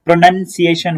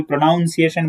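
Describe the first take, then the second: First: "प्रोनाउंसिएशन" said with "nun", as pro-nun-si-ay-shun; correct pronunciation. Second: "प्रोनाउंसिएशन" said with "noun", as pro-noun-si-ay-shun; mistaken pronunciation. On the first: Teacher modelling the right word, "प्रोनाउंसिएशन" with a "nun" syllable. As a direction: say "प्रोनाउंसिएशन" with no "noun" in it. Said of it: "it is pronunciation". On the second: Teacher quoting a common mistake, "प्रोनाउंसिएशन" with "noun" in the middle. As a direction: say "प्रोनाउंसिएशन" wrongly, with an "ow" in it. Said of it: "कोई प्रोनाउंसिएशन बोलता है". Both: Shown as a demonstration.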